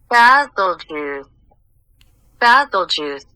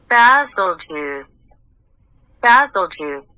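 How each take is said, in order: Both takes have the same delivery.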